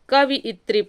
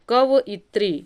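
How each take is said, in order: First: It is said kaviyatri, with 'vi' second. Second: It is said kavayitri, with 'va' second. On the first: The speaker calls it wrong. "तो हम पढ़ते क्या हैं, कवियत्री पढ़ते हैं" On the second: The speaker calls it right. "जबकि है क्या, कवयित्री"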